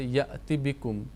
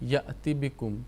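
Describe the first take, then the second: First: The vowel before bikum is short and quick. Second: The same.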